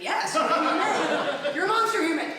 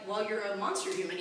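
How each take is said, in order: First: Higher, louder, slow, laughing through it; laughing mock outburst. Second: Said in the usual way. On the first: Comic answering her online bully with a laughing yell. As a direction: let the insult swell into a laughing yell. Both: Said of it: "I'm like".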